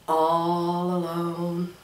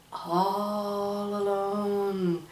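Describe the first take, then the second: First: Slow, softer and lower all alone; slow soft repeat. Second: Very slow, much softer alone; drawn-out whisper. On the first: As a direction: savour it slowly, hushed. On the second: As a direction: stretch all alone out softly. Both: Shown as a demonstration. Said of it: "Do you hear the sound of".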